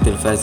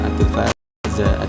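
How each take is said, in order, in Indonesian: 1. Kata ini diakhiri dengan konsonan 'z'. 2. Kata ini diakhiri dengan vokal 'a'. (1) "Jadi pengucapannya tuh supaya enak, at-tilfaz gitu" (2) "gak jangan at-tilfaza"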